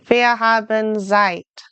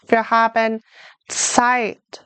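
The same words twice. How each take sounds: First: Zeit begins with a plain z sound. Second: Zeit begins with a ts sound. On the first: The speaker calls it wrong. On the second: The speaker calls it right. "Like a T S"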